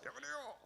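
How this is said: The voice sounds faint, as if from far away. "멀리서"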